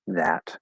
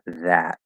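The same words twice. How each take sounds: First: The final t is fully released. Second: The final t is stopped and not released. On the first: "but fully enunciated would be that" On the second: "Now we probably stop the T at the end"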